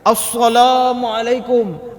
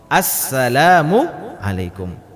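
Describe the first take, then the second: First: The s sound is heavy and emphatic. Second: The s sound is light and plain. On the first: The word changes to a different meaning. The speaker calls it wrong. "ada yang membaca seperti ini" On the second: The word keeps its meaning of peace. The speaker calls it right. "jadi sin di sini bacanya sin"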